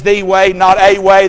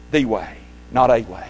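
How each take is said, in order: First: "The way" louder, "not a way" louder still; stress on THE. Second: THE in "The way" stressed against "a". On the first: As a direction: punch "The" and "not". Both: Shown as a demonstration. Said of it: "Very, very significant that you see that".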